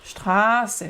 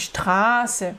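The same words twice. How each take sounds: First: The first vowel is held long. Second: The first vowel is held long.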